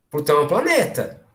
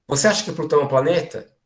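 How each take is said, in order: First: "Plutão é um planeta." stated with a final fall, leaving no room for doubt; firm statement tone. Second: "Você acha que Plutão é um planeta?" asked as a real, open question, inviting doubt. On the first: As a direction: say "Plutão é um planeta." as a settled fact that expects agreement. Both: Shown as a demonstration. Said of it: "o tom de voz que eu uso".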